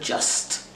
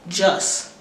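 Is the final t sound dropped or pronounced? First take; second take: pronounced; dropped. First: The final t sound is pronounced. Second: The final t sound is dropped. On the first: "instead of" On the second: "There are no consonant pairs"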